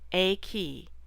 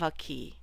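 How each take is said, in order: First: The article is said slowly as a full vowel. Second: The article is reduced and linked to nearby words. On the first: "When we speak very slowly, we can say a" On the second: "When we put this into a sentence or phrase, however, it becomes a"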